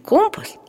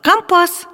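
First: The stress is on the first syllable. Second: The stress is on the second syllable. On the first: This is the everyday form. The speaker calls it wrong. "моряки всегда говорят не компас" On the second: This is the form sailors use. The speaker calls it right. "а компас"

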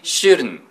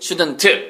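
First: The final T sound is dropped. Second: The final T sound is clearly released. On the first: The speaker calls it right. "you should say shouldn't" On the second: The speaker calls it wrong. "여기서는 T 발음을 하면 안 된다는 얘기죠"

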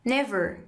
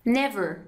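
Both takes have the same delivery.

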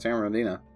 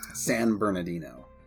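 First: The name is said quickly and slurred. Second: The name is said slowly and clearly.

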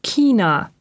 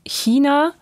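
First: It begins with a hard k-sound. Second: It begins with a soft ich-sound. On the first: The speaker calls it wrong. "und nicht China" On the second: The speaker calls it right. "entspricht die eher norddeutsche Aussprache der Standardlautung"

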